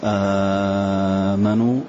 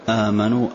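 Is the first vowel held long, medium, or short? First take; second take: long; medium. First: The first vowel is held long. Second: The first vowel is held medium length. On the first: "مد" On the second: "توسط"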